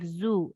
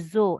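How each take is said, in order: First: The vowel is said with lips fully rounded. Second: The vowel is said with lips only partly rounded. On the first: The speaker calls it right. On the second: The speaker calls it wrong.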